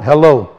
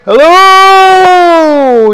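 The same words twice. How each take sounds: First: It is said at a normal phone-greeting volume. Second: It is shouted loudly, as if calling far away.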